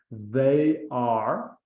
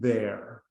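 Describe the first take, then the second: First: It is said as two full separate words. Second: It is said as one short contracted word. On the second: "eu digo there"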